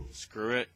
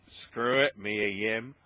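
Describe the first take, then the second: First: Said in the usual way. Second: Louder, punchier repeat of the aside; plain. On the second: Real, not acted. Podcaster shrugging off a name change, loud and emphatic.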